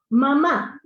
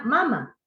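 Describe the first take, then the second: First: "mamá" with the final á stressed; loud, clear "mamá", weight on the last á; stress on last syllable. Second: "mama" stressed on the first ma, falling away; stress on first syllable. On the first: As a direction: say "mamá", landing firmly on the second syllable. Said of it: "es una palabra aguda y lleva el acento en la última". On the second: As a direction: say "mama" as MA-ma, final syllable unstressed. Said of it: "¿Qué pasa si le quito el acento?". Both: Shown as a demonstration.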